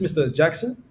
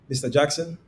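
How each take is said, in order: First: The pitch rises at the end. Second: The pitch stays level at the end. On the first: The caller might be someone the listener knows. "if you come with an upward inflection" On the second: The caller is a little curious. "if you come with a forward inflection"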